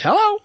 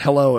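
First: It is said sped up, like a parrot. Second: It is said at a normal speed.

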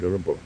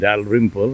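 First: The name is said as two short syllables. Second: The name is said with three full syllables. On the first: The speaker calls it right. "It's William Drempel" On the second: The speaker calls it wrong. "that's how we pronounce it, and that's obviously not the right pronunciation"

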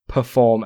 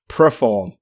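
First: The word is said with its standard sounds. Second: The sounds in the first syllable are swapped. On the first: The speaker calls it right. "try to say perform" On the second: The speaker calls it wrong. "not perform, ... twists the Queen's English like that"

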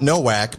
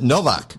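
First: The middle consonant is a W sound. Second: The middle consonant is a V sound. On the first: The speaker calls it wrong. "So it's not Nowak" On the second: The speaker calls it right. "my parents pronounced it Novak"

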